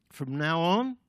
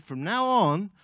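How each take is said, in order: First: Loud mock-important announcement, rising at the end; boastful echo. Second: Loud, raised pitch, lifting at the end; solemn proclamation. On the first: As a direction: parade the new title to your mates. Peter boasts, echoing Jesus. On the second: Acted. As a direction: announce it as a big decree. Jesus renames Simon.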